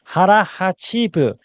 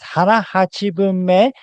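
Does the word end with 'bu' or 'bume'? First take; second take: bu; bume. First: The word ends with the syllable 'bu'. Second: The word ends with the syllables 'bu-me'. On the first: This is a slang-like shortened form. The speaker calls it wrong. "not harahachibu" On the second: This is the official, more common form. The speaker calls it right. "the correct way to say this is harahachibume"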